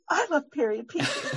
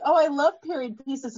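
First: Gasp, then echo her words back with a giddy laugh; laughing, thrilled agreement; excited fangirl echo. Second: Said in the usual way. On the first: Retold or imitated. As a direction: play the delighted fan finding a kindred spirit. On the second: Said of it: "she's like".

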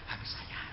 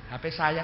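First: Barely audible whisper; pelan, tidak keras. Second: Said in the usual way. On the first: Shown as a demonstration. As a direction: say it under your breath, very softly. (berbisik sangat pelan) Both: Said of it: "jangan keras-keras".

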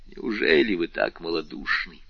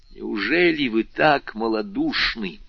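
First: Lower, scornful question; contemptuous. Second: Slower, more forceful reproach; rising heat. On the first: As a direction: throw the question at her with contempt. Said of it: "воскликнул с презрением Вильфор". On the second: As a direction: press the question with mounting fervour. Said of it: "продолжал Вильфор с возрастающим жаром". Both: A narrator's reading.

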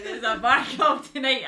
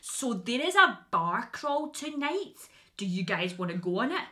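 First: Loud, higher, run-together sales shout; laughing, unguarded loud announcement; excited native-speaker pitch. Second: Sales pitch spelt out word by word; painstakingly slow, over-enunciated delivery; very slow, careful speech. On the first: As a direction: blurt it out freely to fellow Scots. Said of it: "I remember when it was Scottish". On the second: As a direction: drag each word out so foreigners can follow. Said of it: "I had to, like, speak, like, so slow". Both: Retold or imitated.

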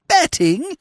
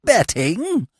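First: High, squeaky shocked repeat; aghast at the news; shocked disbelief. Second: Choked, gargling voice; words gurgling in the throat; gargled. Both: A narrator's reading. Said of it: "he gargled".

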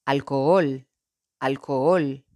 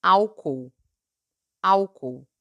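First: "alcohol" in Spanish, stressed on the last syllable. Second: "álcool" in Portuguese, stressed on the first syllable. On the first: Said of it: "En español". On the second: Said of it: "En portugués". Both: Shown as a demonstration.

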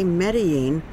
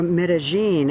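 First: Said in the usual way. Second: Medellin with the local 'zh' for the double L; local pronunciation. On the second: Shown as a demonstration. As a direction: say Medellin as meh-deh-ZHEEN. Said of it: "as it's pronounced here".

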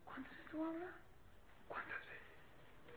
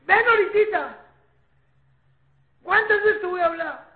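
First: Very soft scolding, fading to a whisper; hushed telling-off, nearly whispered; lowered voice. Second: High, loud parental scolding; loud, high-pitched telling-off; raised scolding voice. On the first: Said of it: "Bajando la voz". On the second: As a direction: scold the child at raised volume. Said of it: "si subiste o bajaste". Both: Shown as a demonstration.

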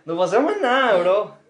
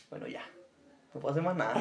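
First: Louder, higher exasperated take; emphatic. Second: Quiet resigned take. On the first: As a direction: throw up your hands, say it loud. Repeats the line more emphatically. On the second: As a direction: let it drop, giving up. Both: Acted.

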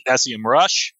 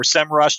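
First: "S E M Rush" with S, E, M spelled out; letter-by-letter pronunciation. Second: "sem rush" with sem as one syllable; acronym as a word. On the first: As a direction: say each initial in "S E M Rush" as a separate letter. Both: Shown as a demonstration. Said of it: "how you pronounce it".

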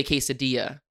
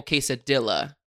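First: "quesadilla" Spanish style, the double L said as a Y sound. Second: "quesadilla" with a clear English L sound. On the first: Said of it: "You do say quesadilla". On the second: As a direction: say "quesadilla" the American way, L pronounced. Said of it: "say it the English way". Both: Shown as a demonstration.

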